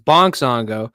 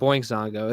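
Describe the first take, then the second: First: The first word has a plain 'onk' vowel sound. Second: The first word has an 'oink' vowel sound. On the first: The speaker calls it right. "it's Bonk Zongo" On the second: The speaker calls it wrong. "it's not Boink Zongo"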